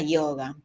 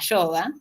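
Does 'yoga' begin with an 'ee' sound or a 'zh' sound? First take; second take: ee; zh. First: It begins with a vowel-like 'ee' sound. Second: It begins with a buzzing 'zh' sound. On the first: The speaker calls it right. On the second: The speaker calls it wrong. "en el ámbito rioplatense no se tendría que escribir con Y, porque eso hace que yo diga yoga"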